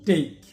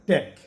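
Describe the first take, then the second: First: The vowel sounds like the a in day. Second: The vowel sounds like the a in cat. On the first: The speaker calls it right. "এটা হলো টেক" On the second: The speaker calls it wrong. "আমরা বলতে পারি ট্যাক, কিন্তু না"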